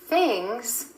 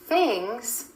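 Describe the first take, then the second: The two takes are said the same way.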